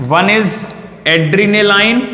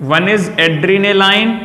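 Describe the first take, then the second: First: Said in the usual way. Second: One is adrenaline, each word drawn out very slowly; slow dictation. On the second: Shown as a demonstration. Teacher slowing down so students copy the drug name. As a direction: spell it out slowly so students can write.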